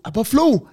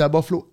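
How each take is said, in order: First: "À Buffalo?" jumps much higher and louder, in shock; stunned disbelief. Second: Said in the usual way. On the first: Retold or imitated. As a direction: echo the city back in disbelief. Learns he was traded by phone. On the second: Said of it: "Il dit".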